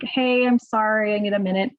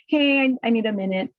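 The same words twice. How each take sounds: First: Midwest nice. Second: Said in the usual way. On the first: Shown as a demonstration. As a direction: soften it with a needless sorry. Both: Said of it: "notice I didn't say that Midwest nice".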